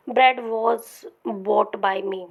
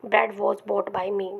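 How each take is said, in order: First: Said in the usual way. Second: Slow dictation. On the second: Shown as a demonstration. Teacher repeats example slowly.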